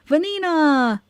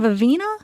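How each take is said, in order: First: The name's second consonant is an N sound. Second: The name's second consonant is a V sound. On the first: The speaker calls it right. "It's Vanina" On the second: The speaker calls it wrong. "Was I saying Vavina?"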